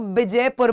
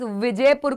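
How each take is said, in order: First: The word begins with a b sound. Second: The word begins with a v sound. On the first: "accent wise विजयपुर को विजयपुर बोलते हैं, व को ब बोलते हैं" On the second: "व को ब बोलते हैं"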